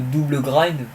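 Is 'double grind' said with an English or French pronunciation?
French. It is pronounced the French way. It sounds less stylish. The speaker calls it wrong. "au lieu de"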